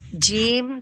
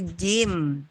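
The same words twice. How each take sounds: First: The j is made harshly with the tongue tip. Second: The j is made cleanly with the mid-tongue. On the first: The speaker calls it wrong. "bukan jim" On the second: The speaker calls it right. "tapi jim ya, bersih ya"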